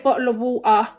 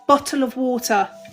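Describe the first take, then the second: First: The t sounds are dropped. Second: The t sounds are clearly pronounced. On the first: The speaker calls it wrong. "I don't say bottle of water" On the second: The speaker calls it right. "Yep, I say my T's"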